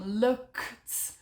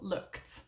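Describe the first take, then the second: First: The word is said slowly and broken apart. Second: The word is said quickly and naturally. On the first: "speed up your pronunciation as well, from looked" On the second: "a completely natural looked"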